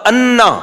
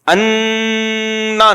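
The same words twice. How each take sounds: First: The vowel is short and plain without wavering. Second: The vowel is long, stretched and wavering in pitch. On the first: The speaker calls it right. "बस अन्ना बस" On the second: The speaker calls it wrong. "अन्ना नहीं है, फिर अं भी घुमाएगा, बहुत ऊंचा नीचा करेगा उसको"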